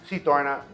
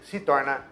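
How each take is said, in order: No difference in how they are said.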